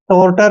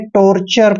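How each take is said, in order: First: The middle consonant is a plain t sound. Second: The middle consonant is a ch sound. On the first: The speaker calls it wrong. "टॉर्टर नहीं पढ़ना है" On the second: The speaker calls it right. "टॉर्चर पढ़ना है"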